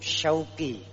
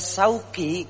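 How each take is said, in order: First: The name begins with an sh sound. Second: The name begins with a plain s sound. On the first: The name means longing. The speaker calls it right. "menggunakan huruf shin yang punya arti kerinduan" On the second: The name means market. The speaker calls it wrong. "menggunakan sin, maka artinya nama saya jadi pasar"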